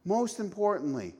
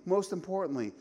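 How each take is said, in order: Both takes have the same delivery.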